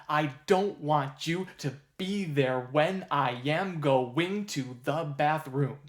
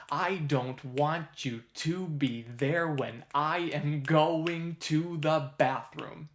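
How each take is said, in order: First: Slow chant, wrongly leaning on "don't", "you", "be", "when"; stress on offbeats. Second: Slow chant, "I", "want", "to", "there" landing on strong beats; stress on the beat. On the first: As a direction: misplace the beats: punch "don't" and the second syllable of "going". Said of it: "place the stress of that lyric on two and four". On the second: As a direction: chant it slowly in four, starting strong on "I". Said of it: "should agree with the rhythm". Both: Shown as a demonstration.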